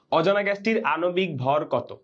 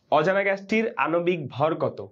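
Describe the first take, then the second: The two takes are said the same way.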